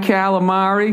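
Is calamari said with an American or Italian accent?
American. The word is said with an American accent. The speaker calls it wrong. "The way I say it. Just fucking terrible"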